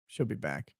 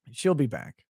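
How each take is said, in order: First: "She'll be back" dropped low and much softer, like a murmur; soft aside. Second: Said in the usual way. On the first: Pretend. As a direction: echo "She'll be back" quietly under the breath.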